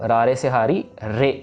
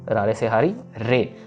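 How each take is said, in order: No difference in how they are said.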